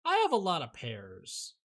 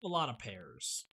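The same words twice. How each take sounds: First: Louder, stress on "have". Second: Slow, falling, weighty. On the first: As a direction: say it loud and surprised. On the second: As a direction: drag it out slowly. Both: Real, not acted. Repeats the phrase.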